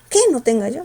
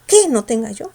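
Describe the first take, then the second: No difference in how they are said.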